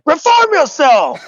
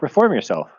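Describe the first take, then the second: First: It is shouted loudly with high energy. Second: It is said calmly at normal volume. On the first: One person yelled the title enthusiastically. "you're like" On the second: Most people said the title normally. "The rest of us are like"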